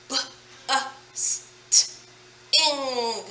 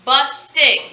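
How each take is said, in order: First: "b, uh, s, t, ing" as separate sounds, a pause after each; sounded out. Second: Said in the usual way. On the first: Shown as a demonstration. Teacher breaks busting down for spelling, "b, uh, s, t, ing" sound by sound. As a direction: say "b, uh, s, t, ing" softly, one sound at a time.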